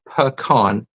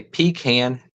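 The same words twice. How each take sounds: First: Pecan said puh-KAHN; pecan with short first vowel, open ah ending; puh-KAHN pronunciation. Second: Pecan said PEE-kan; pecan ending like can; PEE-can pronunciation. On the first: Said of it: "and they say pecan". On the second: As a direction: say pecan with long ee, then kan. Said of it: "people say pecan". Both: Shown as a demonstration.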